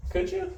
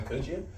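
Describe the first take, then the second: First: Teasing question in a sudden squeaky voice; playful falsetto taunt at the viewers; mock squeaky. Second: Said in the usual way. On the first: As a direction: squeak the question up to tease them. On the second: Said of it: "you couldn't tell that was coming".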